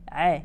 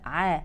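First: The vowel after the ayn is tilted toward e. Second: The vowel after the ayn is fully open. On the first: The speaker calls it wrong. "البعض يقول" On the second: The speaker calls it right. "لا"

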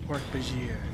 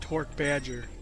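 First: The name ends with a French-style sound. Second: The name ends like the English word badger. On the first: The speaker calls it right. "it has more like that French pronunciation" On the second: The speaker calls it wrong. "I always thought that it was pronounced Hork Badger"

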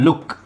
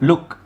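No difference in how they are said.

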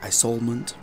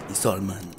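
First: The final T is pronounced. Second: The final T is silent. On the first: The speaker calls it wrong. "he pronounced it as Isolement, but that's incorrect" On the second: The speaker calls it right. "It's Isolement. The T is silent"

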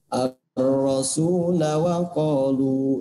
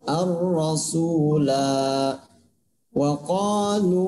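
First: The 'la' vowel is kept short. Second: The 'la' vowel is held long. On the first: The reader continues without stopping. "Itu ketika dia dibaca wasol" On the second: The reader stops at this word. "Itu kalau dibaca waqaf"

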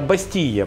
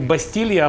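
First: The L sound is dropped before the final vowel. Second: An L sound is pronounced before the final vowel. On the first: The speaker calls it right. "букву «Л» проглатывают" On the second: The speaker calls it wrong. "Не «Бастилья»"

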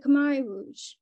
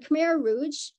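First: Khmer is said with a native-like pronunciation. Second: Khmer is said with the common English pronunciation. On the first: It is closer to the word's true form. The speaker calls it right. "more correct pronunciation" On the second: It is easier for a general audience to understand. The speaker calls it wrong. "butcher the pronunciation of Khmer ... to be more comprehensible"

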